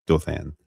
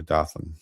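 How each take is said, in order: First: Dothan said "DOH-than"; long oh, full "than" in Dothan. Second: Dothan said "DAH-thun"; Dothan with short O. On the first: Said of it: "I'm gonna go with Dothan". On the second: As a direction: open ah in Dothan, weak second syllable. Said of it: "not sure how to pronounce that". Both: Shown as a demonstration.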